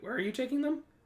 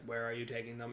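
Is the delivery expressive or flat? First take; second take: expressive; flat. First: It is said with lively, surprised inflection. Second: It is said in a flat monotone. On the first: The speaker is surprised by the answer. "It could be like, wait" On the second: A machine is speaking without reacting. "it's got to talk monotone"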